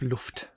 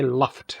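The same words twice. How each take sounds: First: It is said with a native German pronunciation. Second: It is said with an English-style pronunciation. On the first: This is the correct German way of saying it. "instead of Luft" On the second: This is the anglicized way of saying it. "Then you might as well say Luft as well"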